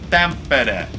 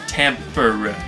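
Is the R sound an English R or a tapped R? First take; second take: tapped R; English R. First: The R is tapped, sounding like a D. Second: The R is a plain English R. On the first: The speaker calls it right. "that R is pronounced like a D" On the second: The speaker calls it wrong. "instead of"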